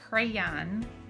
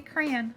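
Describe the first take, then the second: First: The first part sounds like 'cray'. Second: The first part sounds like 'cran'. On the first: This is how people elsewhere say it. "which is not how we say it" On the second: This is how people in Michigan and Minnesota say it. "like a cranberry"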